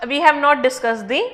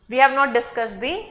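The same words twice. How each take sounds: The two takes are said the same way.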